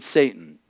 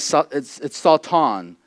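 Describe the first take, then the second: First: The word is said with English pronunciation. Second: The word is said with Hebrew pronunciation. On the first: "or we would pronounce it Satan" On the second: "the Hebrew word, again, it's Satan"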